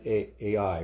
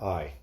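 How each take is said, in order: First: The name is not said like 'eye'. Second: The name is said like 'eye'.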